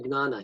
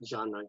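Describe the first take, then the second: First: It begins with a hard g sound. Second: It begins with a soft j sound. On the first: The speaker calls it wrong. "he will not say gnana" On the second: The speaker calls it right. "very soft jnana"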